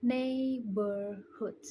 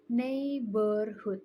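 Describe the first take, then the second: First: Neighborhood said very slowly, bor as burr; slow model neighborhood clearly; careful correct pronunciation. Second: Neighborhood said slowly, the h in hood dropped; own mispronunciation. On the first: Student modelling the fixed word for classmates, slowly. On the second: Student replaying her own mispronunciation, slowly. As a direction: drag out neighborhood as her own wrong version. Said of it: "I said". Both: Shown as a demonstration.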